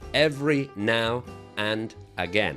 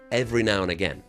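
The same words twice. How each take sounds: First: Each word is said separately, with breaks. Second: The words flow together without any breaks. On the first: The speaker calls it wrong. "I don't say" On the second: The speaker calls it right. "it kind of goes together. It flows like a river"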